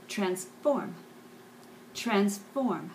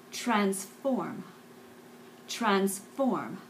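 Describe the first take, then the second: No difference in how they are said.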